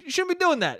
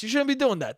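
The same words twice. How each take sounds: First: "doing" rising high in the repeat, scolding; emphatic repeat. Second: Said in the usual way. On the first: Real, not acted. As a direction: say "You shouldn't be doing that" again, pitch jumping up on "doing".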